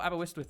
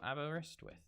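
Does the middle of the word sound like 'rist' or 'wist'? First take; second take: wist; rist. First: The middle part sounds like 'wist'. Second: The middle part sounds like 'rist'. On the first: The speaker calls it wrong. "I thought Aberystwyth was how you said it" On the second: The speaker calls it right. "I think it's wrist, not Wistwith"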